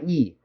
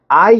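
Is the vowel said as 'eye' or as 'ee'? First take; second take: ee; eye. First: The vowel is said like 'ee'. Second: The vowel is said like 'eye'. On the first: The speaker calls it right. "E야" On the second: The speaker calls it wrong. "요거는 I 이렇게 하면 안 돼"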